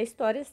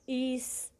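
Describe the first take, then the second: First: Said in the usual way. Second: "his-tó-ria" in three separate syllables, long pauses between. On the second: Shown as a demonstration. Teacher showing pupils how to separate the syllables, syllable by syllable. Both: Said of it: "quando a gente separa a sílaba".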